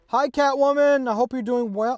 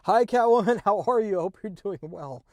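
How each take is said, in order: First: It is said loudly, almost yelling. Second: It is said quietly, at normal volume.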